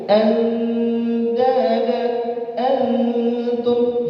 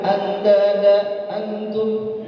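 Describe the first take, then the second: First: The nasal n sounds are held for two beats. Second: The nasal n sounds are cut short. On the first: The speaker calls it right. "Dua harokat tuh. Jadi ada apa? Ada tempo" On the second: The speaker calls it wrong. "Itu berarti kita menghilangkan gunnah di situ"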